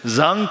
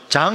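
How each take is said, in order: First: The name is said with a French pronunciation. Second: The name is said with a Korean pronunciation. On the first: The speaker calls it right. "불어는 장 이렇게 해야 되기 때문에" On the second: The speaker calls it wrong. "그렇다고 장 이러면 안 됩니다"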